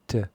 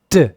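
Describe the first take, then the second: First: The consonant is said with normal, lighter force. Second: The consonant is punched out with strong force. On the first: "there's a lower peak" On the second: "there's a higher peak where I punch it"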